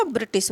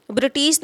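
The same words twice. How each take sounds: First: ब्रिटिश quieter, with short second i; correct form. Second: ब्रिटिश with long second vowel, bri-tees; wrong form. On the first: Teacher answering her own question for students, correct form. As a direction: keep both vowels of ब्रिटिश short. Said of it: "ब्रिटिश होगा". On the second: Teacher showing students the wrong spelling, wrong form. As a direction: lengthen the tee in ब्रिटिश. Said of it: "ब्रिटिश नहीं बल्कि". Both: Shown as a demonstration.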